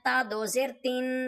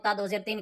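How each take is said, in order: First: The final syllable is lengthened with a nasal hum. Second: The final syllable is short, without nasal lengthening. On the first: The speaker calls it right. "थोड़ा सा लंबा, यहाँ पे गुन्ना हो रहा है" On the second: The speaker calls it wrong. "वो ता दो ज़ेर तीन कह देते हैं। ऐसे नहीं इसको पढ़ना है"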